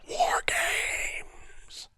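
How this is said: It is a whispered yell. "the whisper yell"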